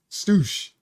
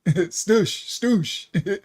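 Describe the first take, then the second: First: Said in the usual way. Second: A light put-on Jamaican patois on "Stoosh", said with a laugh; half-joking West Indian patois "Stoosh"; fake patois accent. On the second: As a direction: toss off "Stoosh" in a playful mock patois. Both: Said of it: "I just did my fake patois accent".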